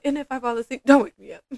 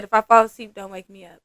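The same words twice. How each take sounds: First: Higher lilt, then a louder finish; light, joking warning. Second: Straight-up warning. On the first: Client playfully telling her therapist not to wake her, lightly. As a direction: imitate a client half-joking but meaning it. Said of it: "she was laughing when she said it". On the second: Client warning her massage therapist before dozing off, straight up. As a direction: imitate a client bluntly laying down a rule. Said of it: "straight up told me". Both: Retold or imitated.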